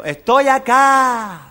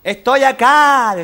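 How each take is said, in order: First: Cave echo. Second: Slow high shout. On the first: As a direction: drag it out like an echo. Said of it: "Y el eco". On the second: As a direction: shout it slowly into the cave. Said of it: "así gritaba el médico". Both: Acted.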